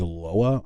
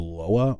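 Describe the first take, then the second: First: The word is pronounced like 'Loa'. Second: The same.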